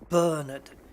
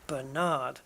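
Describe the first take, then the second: First: The stress is on the first syllable. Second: The stress is on the second syllable. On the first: This is how British speakers say it. "we would put the emphasis on the first syllable" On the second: This is how American speakers say it. "But in the States, it's on the second one"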